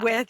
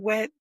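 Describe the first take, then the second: First: The word ends with a th sound. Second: The word ends with a t sound. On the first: This is the standard form the locals do not use. "You don't say" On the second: This is how locals say it. "you say wit"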